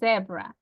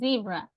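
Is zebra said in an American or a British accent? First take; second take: British; American. First: The word is said in a British accent. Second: The word is said in an American accent. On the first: "but the British one, they say zebra" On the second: "The American people, they say zebra"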